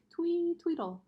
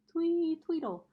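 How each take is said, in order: First: Lightly chirped birdsong; a hint of a bird's twee tweedle; little bird call, barely sung; chickadee twee. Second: High, loud birdy chirp on twee; bright peeping chickadee twee tweedle; chirpy chickadee call. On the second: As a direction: chirp it like a little bird. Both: A narrator's reading. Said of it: "their songs had sounded like".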